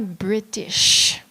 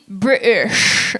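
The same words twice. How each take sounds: First: The T in the middle is clearly pronounced. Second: The T in the middle is dropped.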